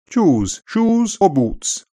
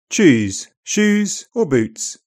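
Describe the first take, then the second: First: It is read in upper RP, ooh vowel back. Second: It is read in General British, ooh vowel central. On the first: "it remains a back vowel in all places in upper RP" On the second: "This sound is now very central in GB"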